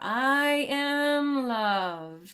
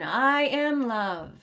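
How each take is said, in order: First: The phrase is spoken very slowly and drawn out. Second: The phrase is spoken slowly. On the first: "Slow it down even more" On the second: "Slowing it down"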